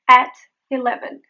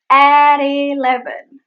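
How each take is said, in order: First: "At eleven" apart with clear T; separated words. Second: "at eleven" loud, slow, stretched and tapped; linked flap T. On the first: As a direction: pause after "At". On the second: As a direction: draw out "at" into "eleven". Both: Shown as a demonstration. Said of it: "It is meet at eleven".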